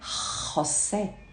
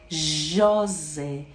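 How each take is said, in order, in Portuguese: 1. Começa com um som gutural áspero. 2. Começa com um 'zh' suave, com vibração. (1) "para nós parece um R" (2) "ela vai ter som de J"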